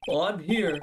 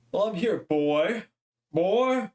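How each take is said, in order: First: Pompous lawyer. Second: Put-on slow, drawn out lawyer with a higher boy; lightly hammed-up pompous lawyer. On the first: Acted. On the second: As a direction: stretch it out like a grand old lawyer. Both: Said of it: "now I gotta give him a voice".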